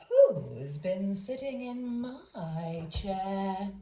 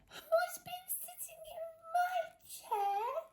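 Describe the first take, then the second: First: It is said in a middle-sized voice. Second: It is said in a tiny squeaky voice.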